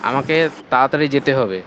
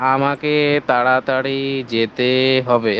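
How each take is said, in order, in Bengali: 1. স্বরধ্বনিগুলো স্বাভাবিক দৈর্ঘ্যে বলা হয়। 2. স্বরধ্বনিগুলো টেনে লম্বা করে বলা হয়।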